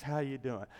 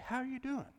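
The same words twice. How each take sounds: First: Casual time-passing greeting. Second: Sincere relational greeting. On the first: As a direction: imitate a guy's offhand hello, kept low-key. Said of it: "He's just passing the time". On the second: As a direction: imitate a woman's caring question, higher and softly put. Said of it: "They really mean it". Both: Acted.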